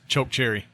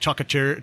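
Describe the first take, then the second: First: It is said as two clear words. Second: It is slurred together as one odd word.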